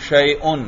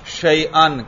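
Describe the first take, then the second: First: The ending vowel is u, as in shay'un. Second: The ending vowel is a, as in shay'an. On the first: "میں کیا پڑھ رہا ہوں حمزہ پر؟ پیش" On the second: "کیا پڑھ رہا ہوں؟ زبر"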